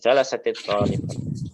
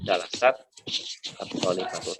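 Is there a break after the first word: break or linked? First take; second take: linked; break. First: The first word runs straight into the second. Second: The first word stops before the second begins. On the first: "kalau untuk percakapan biasanya ya di wasalkan" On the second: "Kalau enggak disambung atau antum bacanya di wakaf-wakaf"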